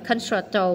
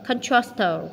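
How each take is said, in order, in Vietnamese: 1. Chữ c thứ hai không đọc là ch. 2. Chữ c thứ hai đọc là ch. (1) "không phải concerto" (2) "mà là concerto"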